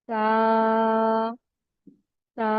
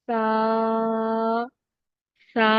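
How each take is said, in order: The two takes are said the same way.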